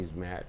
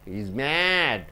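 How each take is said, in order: First: The vowel in mad is short and clipped. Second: The vowel in mad is long and drawn out. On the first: The speaker calls it wrong. "You don't say he's mad" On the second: The speaker calls it right. "A, E, I, O, U is pulled"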